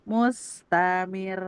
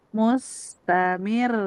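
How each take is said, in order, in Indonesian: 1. Nada tetap datar sampai suku kata terakhir. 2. Nada naik sedikit pada suku kata terakhir. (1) "nggak naber mah gini. Mustamir itu lempeng" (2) "Ini mah tasdid dan dinaikin sedikit eh, intonasinya"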